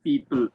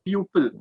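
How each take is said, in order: First: The first vowel sounds like 'ee'. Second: The first vowel sounds like 'oo'. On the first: The speaker calls it right. "here we pronounce it as people" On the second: The speaker calls it wrong. "but not pupil. There should be no sound of u"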